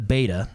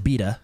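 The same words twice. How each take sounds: First: Beta is pronounced the usual American way. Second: Beta is pronounced the European way.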